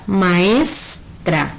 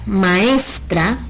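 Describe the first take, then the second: First: "maestra" with ES stretched, then a separate "tra"; stress on ES. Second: Said in the usual way. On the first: Shown as a demonstration. Teacher showing the tonic syllable, "maestra" with held stressed ES. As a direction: draw out the middle of "maestra": ma-ESSS, tra. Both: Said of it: "se pronuncia con mayor intensidad".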